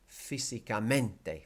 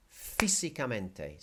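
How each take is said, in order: First: "físicamente" with the MEN punched instead of the first syllable; wrong stress on MENTE. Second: Slow "físicamente" with FÍ stressed; stress on first I. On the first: Teacher showing students the mistake, "físicamente" stressed on MEN. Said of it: "is not gonna be". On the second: Teacher modelling the accent mark for students, "físicamente" stressed on FÍ. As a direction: hit the FÍ at the start of "físicamente". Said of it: "you hit that first I". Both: Shown as a demonstration.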